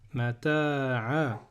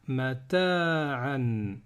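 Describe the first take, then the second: First: The word ends with a vowel, no 'n'. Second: The word ends with an 'n' sound. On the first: The reader stops on this word. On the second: The reader continues without stopping.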